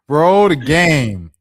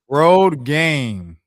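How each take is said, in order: First: Each word is pronounced distinctly and carefully. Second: The same.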